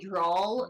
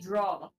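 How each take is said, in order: First: The word ends with an added L sound. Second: The word ends without an L sound.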